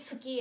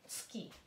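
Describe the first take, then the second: First: The u after ts is said fully and strongly. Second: The u after ts is barely voiced. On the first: The speaker calls it wrong. "Hindi tsuki, ha? Masyadong, huwag nating, ano yan, dukdukin ng tsuki" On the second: The speaker calls it right. "Ganyan lang. Medyo maliit lang yung you"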